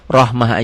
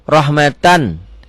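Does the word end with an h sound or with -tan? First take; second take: h sound; -tan. First: The word ends with a soft h sound. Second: The word ends with a t and -an. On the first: The reading stops after this word. The speaker calls it right. "Rahmah aja" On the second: The reading runs on into the next word. The speaker calls it wrong. "Ini boleh dibaca tetap seperti rahmatan innaka, boleh ya, tapi nggak nggak nggak nggak elok"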